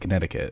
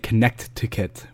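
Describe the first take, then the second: First: The middle T is dropped, not pronounced. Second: The middle T is pronounced clearly and hard. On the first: The speaker is a local. The speaker calls it right. "You say Connecticut. ... Not pronouncing your T's" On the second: The speaker is not from the state. The speaker calls it wrong. "You don't say Connect-ticket if you live in Connecticut"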